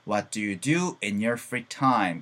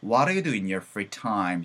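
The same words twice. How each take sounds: First: Said in the usual way. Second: "What do you" flapped to waɾe, words joined; faster linked reading. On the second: Shown as a demonstration. Teacher showing the quicker linked version. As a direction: run the sentence together a little faster. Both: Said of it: "근데 좀 빨리 가면 어떻게 되겠다?".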